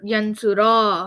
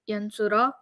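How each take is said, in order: First: The final vowel is drawn out long. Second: The final vowel is very short. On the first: "you make that one long" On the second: "The ah should be even shorter than what you did"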